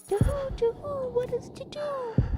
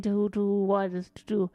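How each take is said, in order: First: High hooting owl voice; owl guy. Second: Said in the usual way. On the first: Acted. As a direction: hoot it way up high like a cartoon owl. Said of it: "there's an owl guy who goes".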